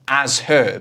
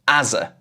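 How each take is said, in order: First: Both words are said fully, with the h sounded. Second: The h is dropped and the words run together. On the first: "This says as her, but I never say as her in normal conversation" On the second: "I'm more likely to say as a"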